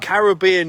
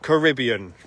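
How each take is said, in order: First: It is said with a British pronunciation. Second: It is said with an American pronunciation. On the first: The speaker calls it right. "It's Caribbean" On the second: The speaker calls it wrong. "not Caribbean"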